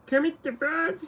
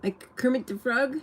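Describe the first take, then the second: First: High, thin frog-puppet voice; Kermit voice. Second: Said in the usual way. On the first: Shown as a demonstration. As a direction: try out Kermit the Frog's voice. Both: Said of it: "Sounds like Kermit?".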